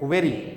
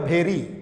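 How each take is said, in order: First: The word begins with a v sound. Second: The word begins with an aspirated bh sound. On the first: The speaker calls it right. "तो भेरी नहीं, वेरी" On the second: The speaker calls it wrong. "आज जो गलत इसका उच्चारण करता होगा वो पढ़ेगा भेरी"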